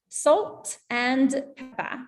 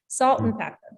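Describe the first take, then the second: First: British accent, with the full word and. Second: American accent, with and reduced to n. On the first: "I'm saying salt and pepper in a terrible British accent" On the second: "in American English"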